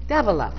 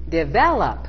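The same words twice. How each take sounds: First: It is said with an Indian English accent. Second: It is said with an American English accent. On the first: "I had clients from India, for example, who would say" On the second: "meaning develop"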